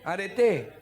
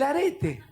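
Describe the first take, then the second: First: The stress is on the final syllable. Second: The stress is on the middle syllable. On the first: It is the Greek word for virtue. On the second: It names an earring.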